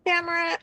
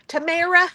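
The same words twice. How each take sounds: First: "Tamara" slipped to "Kamara" with a K start; "Tamara" fumbled, first sound a K, not a T; stumbled name. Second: "Tamara" said "tuh-MAIR-uh" with a clear T; "Tamara" fixed, crisp T and long middle A; corrected name. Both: Real, not acted. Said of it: "Sorry, I'm stammering".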